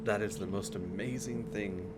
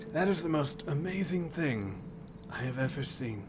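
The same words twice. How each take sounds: First: Said in the usual way. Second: Lightly voiced old man; a hint of a frail elder. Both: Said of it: "Where's my old man voice?".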